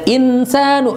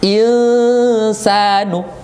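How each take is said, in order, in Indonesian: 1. Vokal di tengah dibaca pendek. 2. Vokal di tengah dibaca panjang. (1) "jangan insanu, itu salah" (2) "satu alif dua harokat"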